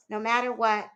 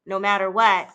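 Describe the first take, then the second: First: Said in the usual way. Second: Father's firm vow, louder, falling on what; firm insistence. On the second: A narrator's reading. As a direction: press it home, no matter WHAT.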